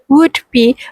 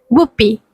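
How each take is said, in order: First: Each sound is said separately, without blending. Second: The final d blends into the following b. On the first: "pronounced them carefully as "would be" without any sound blending" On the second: "sound blending like "would be""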